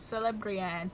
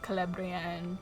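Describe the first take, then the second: First: The first C is a soft s sound. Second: The first C is a hard k sound. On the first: The speaker calls it wrong. "thinking it was a soft C" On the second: The speaker calls it right. "it's always a hard C"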